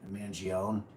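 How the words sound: The name is said with an Americanized pronunciation. The name has been adapted to American speech. The speaker calls it wrong. "they may have bastardized it and just gone Mangione"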